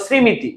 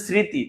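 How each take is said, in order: First: শ্রীমিতি said "srimiti", with the ম sounded; three-beat misreading, sri-mi-ti, in শ্রীমিতি; mistaken pronunciation. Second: স্মৃতি said "sriti", with a silent ম; correct pronunciation. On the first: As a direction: add an m syllable in শ্রীমিতি. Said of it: "এরকম করে বলতেও তো পারো". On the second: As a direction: say স্মৃতি without any m sound. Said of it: "তুমি বলো শ্রীমিতি". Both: Shown as a demonstration.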